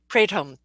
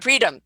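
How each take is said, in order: First: The name does not sound like 'freedom'. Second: The name sounds just like 'freedom'. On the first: The speaker calls it wrong. "I didn't sound it very well" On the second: The speaker calls it right. "Sounds like freedom"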